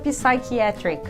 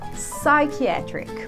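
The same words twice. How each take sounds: First: The P at the start is pronounced. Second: The P at the start is silent. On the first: The speaker calls it wrong. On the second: The speaker calls it right.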